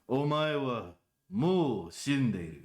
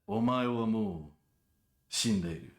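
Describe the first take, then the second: First: No pause comes before the last word. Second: A short pause comes before the last word. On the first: The speaker calls it wrong. "why are you emphasizing the always part of it?" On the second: The speaker calls it right. "That little pause before shinderu really sells it"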